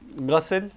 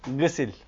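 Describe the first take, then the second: First: The first vowel is an open a sound. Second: The first vowel is a front i sound. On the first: It means cleaning or purification. "ya fetha oluyor" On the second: It means washing with a cleaning agent like soap. "ya da kesre oluyor"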